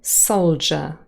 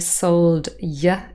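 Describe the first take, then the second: First: The d and y merge into one j sound. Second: The d and y are said as separate sounds. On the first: This is the current pronunciation. The speaker calls it right. "It has become soldier" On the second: This pronunciation is no longer used. The speaker calls it wrong. "We do not say sold y anymore"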